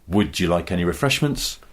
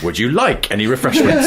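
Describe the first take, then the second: First: The stress falls on the word "would". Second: The stress falls on the word "like". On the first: "moving the emphasis down the sentence" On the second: "moving the emphasis down the sentence"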